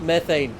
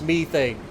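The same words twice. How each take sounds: First: The word has the American pronunciation. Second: The word has the British pronunciation. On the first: The speaker calls it wrong. "it's not methane" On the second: The speaker calls it right. "somebody with a very strong British accent"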